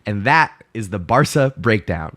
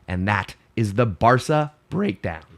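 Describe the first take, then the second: First: The voice stays steady without cracking. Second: The voice cracks while saying it.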